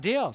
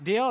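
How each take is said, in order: First: DEAL with a falling, settled tune; agreeing answer. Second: DEAL with a rising question tune; questioning offer. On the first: The prophets accept Elijah's challenge, DEAL falling in agreement. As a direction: close DEAL firmly with a fall in pitch. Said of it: "And they're like". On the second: Elijah offers the prophets a challenge, DEAL asked with a rise. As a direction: make DEAL a question, pitch lifting at the end. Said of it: "Elijah's like". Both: Acted.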